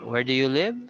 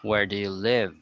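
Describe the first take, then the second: First: The voice rises at the end. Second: The voice rises in the middle, then falls. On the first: The speaker calls it wrong. "So you don't sound like that" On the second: The speaker calls it right. "So that's how it should sound"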